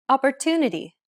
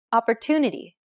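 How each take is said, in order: First: Opportunity with the TU syllable stretched long; English stress-timed demo. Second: Opportunity with a long, stressed TU; stress-timed English demo. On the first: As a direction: lean on TU in Opportunity. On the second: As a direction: hold TU in Opportunity. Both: Shown as a demonstration. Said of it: "The stressed syllable to in opportunity is pronounced longer".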